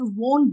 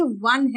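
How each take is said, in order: First: वोन with a round long o; वोन with oh in place of uh; mispronunciation of वोन. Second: वन with a short uh vowel; वन rhyming with "sun"; correct pronunciation of वन. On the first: Retold or imitated. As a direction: say वोन as "vone". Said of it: "कई लोगों को सुना है वोन बोलते हुए". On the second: Shown as a demonstration. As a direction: say वन as "wun". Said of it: "बेटा ये वन है".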